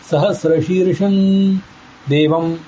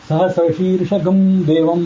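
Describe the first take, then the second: First: The nasal is said like an 'n' sound. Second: The nasal is said as a separate 'gam' syllable. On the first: The speaker calls it right. "ನ ಅನ್ನೋ ರೀತಿಯಲ್ಲಿ ಉಚ್ಚಾರ ಮಾಡಬೇಕು" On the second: The speaker calls it wrong. "ಈಗೆಲ್ಲ ತಪ್ಪು ಹೇಳ್ತಾರೆ"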